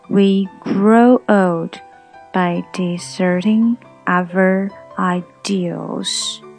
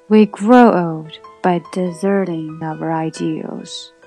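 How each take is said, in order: First: It is read slowly. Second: It is read at normal speed.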